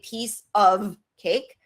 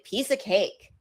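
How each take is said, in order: First: The word 'of' is said in full. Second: The word 'of' is reduced to a short 'a'. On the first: The speaker calls it wrong. "I don't say piece of cake" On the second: The speaker calls it right. "I say piece of cake"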